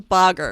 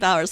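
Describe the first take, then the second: First: The name is said with a 'g' sound, like 'boggers'. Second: The name is said with a 'w' sound, like 'bowers'. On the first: This is how the name is apparently meant to be said. "so it's Boggers" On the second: This is how the speaker has always said the name. "I've always said Bowers"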